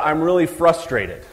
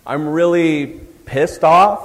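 First: Said in the usual way. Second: Slow, louder mock anger on "I'm really pissed off". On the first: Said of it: "How about". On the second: Shown as a demonstration. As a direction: drag out "I'm really pissed off" in fake annoyance. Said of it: "use words that are pretty specific".

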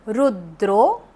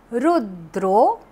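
The two takes are said the same way.

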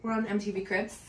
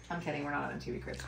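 First: Lightly hammed-up TV host intro, lifting at the end; mock MTV Cribs host. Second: Quiet, fast, laughing correction. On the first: Joking to viewers as a mock celebrity host. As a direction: pretend she's hosting a celebrity house tour. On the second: Real, not acted. Admitting the joke to viewers, softer and laughing. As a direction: drop the act and chuckle it away.

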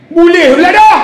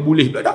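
First: Jeritan garang, tinggi dan lantang; marah. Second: Said in the usual way. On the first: Retold or imitated. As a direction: lakonkan pegawai menengking. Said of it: "Cik marah pakcik ni". (tengking dengan suara tinggi)

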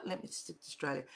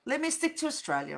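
First: Muttered to self, much softer; soft mumbled self-correction; quiet repeat. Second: Said in the usual way. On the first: Shown as a demonstration. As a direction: say it again under your breath.

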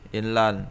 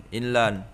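No difference in how they are said.

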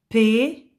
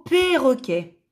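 First: "perroquet" in three beats with long pauses; syllable by syllable. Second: Said in the usual way. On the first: Shown as a demonstration. Teacher showing pupils the syllables, "perroquet" syllable by syllable. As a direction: say each syllable of "perroquet" alone. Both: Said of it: "Si je supprime la première syllabe".

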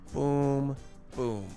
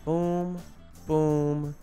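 Both takes have the same delivery.

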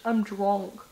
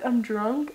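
First: Put-on softer, lower "drunk" rounded to "dronk"; "drunk" pronounced D-R-O-N-K. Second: Said in the usual way. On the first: Shown as a demonstration. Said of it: "D R O N K". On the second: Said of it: "Instead of I'm drunk".

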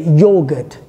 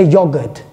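First: "yogurt" said the Australian way, long "yo" as in "yaw"; stretched Australian "yogurt" with a long first syllable; Australian pronunciation. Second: "yogurt" said the British way, short "yog" rhyming with "dog"; British "yogurt" with a short, quick first syllable; UK pronunciation. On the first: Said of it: "you guys from Australia, you say". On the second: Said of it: "In the U K, you don't say". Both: Shown as a demonstration.

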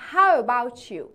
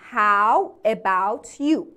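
First: "How about you" with "about" and "you" joined as "abou-chu"; linked pronunciation. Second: Slow "How about you", each word separate; word-by-word pronunciation. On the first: Teacher showing students connected speech, "about you" glued into one word. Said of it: "about و you رو به هم چسبوندم". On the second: Teacher showing students the full form, "How about you" slow and separated. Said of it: "به تلفظا نگاه کن". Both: Shown as a demonstration.

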